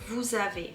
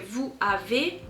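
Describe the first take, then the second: First: The s of vous links as z. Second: The s of vous is silent before avez. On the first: The speaker calls it right. "You would always hear vous avez" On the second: The speaker calls it wrong. "that's not correct"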